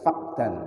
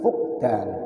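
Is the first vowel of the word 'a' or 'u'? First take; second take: a; u. First: The first vowel is an open 'a'. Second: The first vowel is a rounded 'u'. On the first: The speaker calls it wrong. "bukan fakdan" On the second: The speaker calls it right. "dengan domah fa'a fa'nya"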